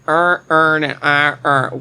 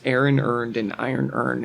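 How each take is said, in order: First: It is said in a Baltimore accent. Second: It is said in a standard accent.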